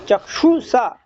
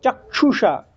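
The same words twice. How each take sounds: First: चक्षुषा with a clear ष, the proper way; correct Sanskrit pronunciation. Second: चक्षुषा as Hindi speakers say it; Hindi speakers' version. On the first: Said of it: "ऐसा बोलना चाहिए". (चक्षुषा शुद्ध उच्चारण) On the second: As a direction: show the Hindi-style चक्षुषा. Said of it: "अपन हिंदी वाले कैसे बोलते हैं". (हिंदी वालों वाला चक्षुषा) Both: Shown as a demonstration.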